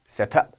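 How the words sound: It is said in a British accent. "영국식 발음 set up"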